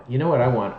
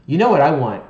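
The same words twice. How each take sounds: First: Said in the usual way. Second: Loud eager question; excited emphasis. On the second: Real, not acted. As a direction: burst out with it. Excited question, then repeated.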